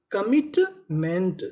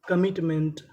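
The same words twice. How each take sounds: First: commitment drawn out slowly; slow syllable by syllable. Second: Said in the usual way. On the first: Shown as a demonstration. Teacher to students, sounding out the word slowly. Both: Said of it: "तो पूरी meaning".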